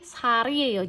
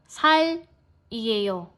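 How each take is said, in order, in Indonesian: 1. Katanya disambung dengan lancar dengan bunyi R. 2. Katanya dipisah dengan bunyi L. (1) "Jangan seperti itu tapi Sariel" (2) "jangan dipatah tuh maksudnya gini, jangan Sal Ieo"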